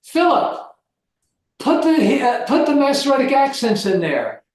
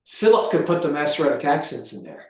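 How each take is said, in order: First: Higher, teacherly instruction to a student; teacher giving an instruction. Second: Said in the usual way. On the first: Retold or imitated. Professor retelling how he instructed his Hebrew student, teacherly and higher. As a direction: play the professor telling his student what to do. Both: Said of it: "Then I would say this to him".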